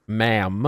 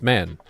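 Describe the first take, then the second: First: "Ma'am." said carefully with a closing m; corrected ma'am. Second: "man." meant as ma'am, ending on n; accented ma'am. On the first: Correcting a word that sounded like man, careful "Ma'am.". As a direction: say "Ma'am." clearly, lips closed on the final m, rising. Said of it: "I know that it sounded like man". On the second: Explaining honorifics for a trans woman, ma'am slipping into "man.". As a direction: let "man." slip out for ma'am through an accent. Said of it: "That's just my bad accent". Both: Real, not acted.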